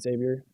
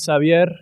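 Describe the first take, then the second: First: The name is said the American way. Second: The name is said the Spanish way.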